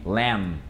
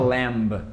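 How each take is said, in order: First: The word ends with an m sound. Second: The word ends with a b sound. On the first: The speaker calls it right. "Termina com som de M" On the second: The speaker calls it wrong. "a gente não fala lamb"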